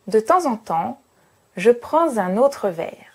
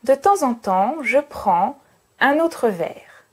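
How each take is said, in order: First: Two rhythm groups; 'prends' links to 'un'. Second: Three rhythm groups; no liaison after 'prends'. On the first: It sounds much more formal. "deux groupes rythmiques... faire une liaison en plus" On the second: It sounds less formal. "je pars du principe que j'ai trois groupes rythmiques"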